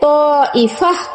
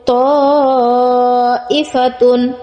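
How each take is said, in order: First: The word ends with an 'h' sound. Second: The word ends with a 'tun' sound. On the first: The reader stops on this word. "উচ্চারণ করার সময় হা উচ্চারণ করে পড়তে হবে" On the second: The word is being spelled out. "তা দুই পেশ তুন"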